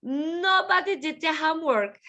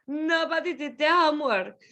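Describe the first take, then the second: First: "nobody" stressed. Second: "Nobody did the homework" said fast; quick repeat. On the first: Teacher models the sentence, stressing "nobody". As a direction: lead with "nobody". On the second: Teacher repeats it quickly for the class. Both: Shown as a demonstration.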